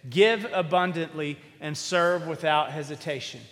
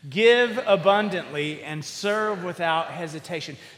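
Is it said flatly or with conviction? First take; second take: flatly; with conviction. First: It is said flatly, without much conviction. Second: It is said forcefully, with real conviction.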